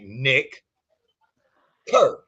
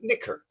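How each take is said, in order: First: The name is said slowly with separated words. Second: The name is said fast with words run together.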